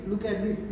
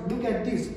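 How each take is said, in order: Both takes have the same delivery.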